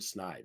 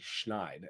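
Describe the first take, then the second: First: The word begins with a plain s sound. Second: The word begins with an sh sound. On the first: The speaker calls it wrong. "I was been mispronouncing it my entire life" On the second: The speaker calls it right. "It's actually schneid"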